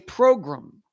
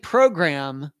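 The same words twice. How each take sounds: First: The last syllable sounds like 'grum'. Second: The last syllable sounds like 'gram'. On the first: The speaker calls it wrong. "It's P R O G R A M, not U M" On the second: The speaker calls it right. "instead of saying program"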